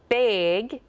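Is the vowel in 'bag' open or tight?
tight. The vowel is tight and raised, like 'big'. "So we say big, it's that A gets so tight"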